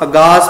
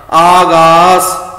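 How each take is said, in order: First: ਅਗਾਸ with quick a, a-gaas; short first vowel. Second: ਆਗਾਸ slow and loud, aa-gaas; long first vowel. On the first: Teacher warns against this reading, ਅਗਾਸ begun short. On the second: Teacher models the right reading, ਆਗਾਸ with long aa. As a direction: hold both aa vowels in ਆਗਾਸ. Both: Shown as a demonstration. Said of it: "ਅਗਾਸ ਪਾਠ ਨਹੀਂ ਕਰਨਾ".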